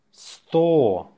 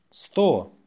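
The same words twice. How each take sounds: First: Slow, stretched-out dictation. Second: Brisk dictation repeat; faster. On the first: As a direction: draw the word out for learners. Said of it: "say it slowly". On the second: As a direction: say the word short and quick. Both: Shown as a demonstration.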